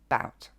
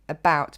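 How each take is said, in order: First: The first vowel is dropped, leaving one syllable. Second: The word is said in full with both syllables.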